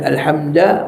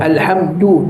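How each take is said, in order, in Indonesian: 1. Suku kata setelah d berakhir dengan a. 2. Suku kata setelah d berakhir dengan u. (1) "bukan alhamda" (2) "du tu dhammah"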